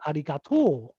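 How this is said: It has the Osaka regional pitch pattern. "in Osaka, people say arigato"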